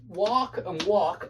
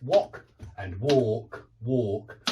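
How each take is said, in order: First: American "walk and walk", both with the same ah; American pronunciation. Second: British "walk and walk", short o then long aw; lower, two distinct English vowels in "walk"; British pronunciation. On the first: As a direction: identical American vowels in both words. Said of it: "are homophones only in America". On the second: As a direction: contrast wok and walk the British way. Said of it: "They're not in England". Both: Shown as a demonstration.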